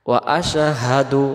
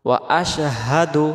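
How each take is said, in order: No difference in how they are said.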